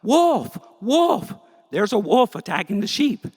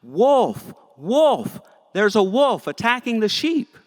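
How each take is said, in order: First: Very high, loud panicked scream; shepherd boy screaming at a real wolf, terrified. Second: High, loud false alarm cry; bored shepherd boy hollering a fake warning, high and loud; yelling out. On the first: Acted. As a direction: scream for help in real terror. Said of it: "he screams out". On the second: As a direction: shout wolf to fool the whole village. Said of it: "trick the villagers by yelling out".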